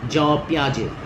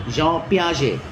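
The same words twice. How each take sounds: No difference in how they are said.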